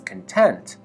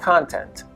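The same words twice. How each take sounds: First: The stress is on the second syllable. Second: The stress is on the first syllable. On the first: Satisfied or pleased. "with stress on the second syllable" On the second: What is included in a book or movie. "The noun content"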